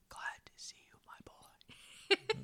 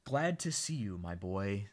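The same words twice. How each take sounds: First: Soft-spoken dad's whisper. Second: Said in the usual way. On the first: Retold or imitated. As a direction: breathe it out, barely audible. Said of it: "except he's like". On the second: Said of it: "says Dad".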